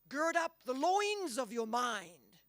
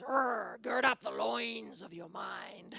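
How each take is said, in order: First: It is said in the speaker's ordinary voice. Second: It is said in a deep, guttural Scottish accent.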